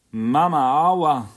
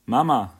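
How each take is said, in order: First: Even higher, very loud wail rising on Mama; bawling scream. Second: Howling, very loud, high-pitched cry for mummy; bawling scream. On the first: Hurt little girl wails for her mother, higher and very loud. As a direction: scream the pain out, still louder. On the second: Crying little girl screams for her mother, very loud. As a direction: wail it out like a hurt toddler. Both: A narrator's reading. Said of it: "brüllte die Kleine".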